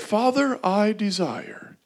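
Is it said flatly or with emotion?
flatly. It is said flatly, without emotion.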